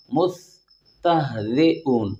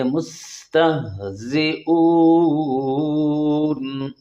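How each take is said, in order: First: مستہزئون slow with the س and ز blurred, as a mistake; wrong reading. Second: مستہزئون very slow and sung, with a sharp whistling س and buzzing ز; hissing sibilants. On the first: Teacher deliberately misreading مستہزئون as a warning. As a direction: say مستہزئون carelessly, without crisp س and ز. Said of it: "جیسے ابھی میں غلط پڑھ رہا ہوں". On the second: Teacher showing the correct whistling س in مستہزئون. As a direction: hiss the س clearly in مستہزئون. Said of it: "سی ٹی کی آواز نکالنی ہے". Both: Shown as a demonstration.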